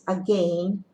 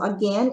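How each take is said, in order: First: It is said with a British pronunciation. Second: It is said with an American pronunciation. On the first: "is again in British English" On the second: "again in American English"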